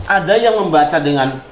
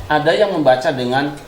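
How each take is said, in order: No difference in how they are said.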